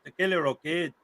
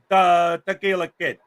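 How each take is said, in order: First: Tequila said with a light Spanish lilt; host shows how to say the name, lightly Spanish accent. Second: Slow, drawn-out Chicago accent on the name; host demos the name for his cohost, Chicago accent. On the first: A hint of Spanish accent on the name. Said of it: "you gotta say it with the Spanish accent". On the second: Mock Chicago accent, said slowly. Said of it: "Well, then use your Chicago accent". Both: Shown as a demonstration.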